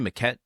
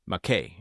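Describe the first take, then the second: First: The name ends with a sounded t. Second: The name ends with an open ay vowel. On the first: The speaker calls it wrong. "Just this episode, I've been saying it wrong" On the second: The speaker calls it right. "So I've generally been saying it right"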